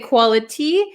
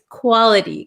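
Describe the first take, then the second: First: The T is a clear, full T sound. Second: The T is a quick flap sound. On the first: "we can say quality" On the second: "this becomes a flap T"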